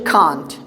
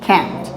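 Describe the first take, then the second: First: It is said with a British accent. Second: It is said with an American accent.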